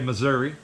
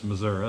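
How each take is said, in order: First: It is said with a northern US pronunciation. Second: It is said with a local Missouri pronunciation. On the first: The speaker calls it wrong. "like we say Missouri" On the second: The speaker calls it right. "Anytime you meet somebody that's from Missouri, it's Missouri"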